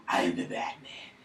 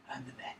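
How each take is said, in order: First: Low, slow whispered hero voice; Batman whisper. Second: Said in the usual way. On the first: Pretend. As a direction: rasp it out like a brooding vigilante. Batman voice, then repeated.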